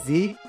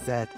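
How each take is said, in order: First: The letter is said the American way. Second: The letter is said the Canadian way.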